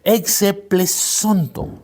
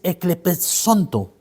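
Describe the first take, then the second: First: The word is said more slowly and carefully. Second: The word is said at normal, quick speed.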